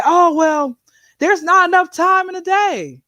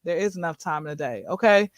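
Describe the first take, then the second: First: High-pitched imitation of an excuse-maker; mock excuse. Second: Low, quick, quiet correction; matter-of-fact rebuttal. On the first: Speaker mimics people claiming they are too busy, mock excuse. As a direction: put on a high, complaining excuse. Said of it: "You can't always say". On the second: Acted. Speaker answers the too-busy excuse, low matter-of-fact rebuttal. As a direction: drop low and soft to counter the excuse.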